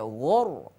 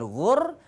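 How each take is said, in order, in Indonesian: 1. Bunyi r itu tebal dan berat. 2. Bunyi r itu tipis dan ringan. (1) "tapi ghur, lebih tebal lagi" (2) "bukan ghur"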